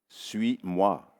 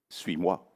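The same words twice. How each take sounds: First: It is said slowly. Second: It is said at normal speed.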